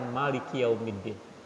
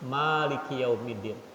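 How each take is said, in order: First: The first vowel of Maliki is kept short. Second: The first vowel of Maliki is drawn out long.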